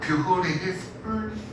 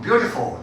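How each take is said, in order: First: Every vowel letter is sounded, giving five syllables. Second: Adjacent vowels merge, giving three syllables. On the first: The speaker calls it wrong. "오 음절이니까 beautiful 이렇게 해야 되는데 이렇게 발음하는 사람 있어요, 없어요?" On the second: The speaker calls it right. "beautiful 다 이렇게 한단 말이야"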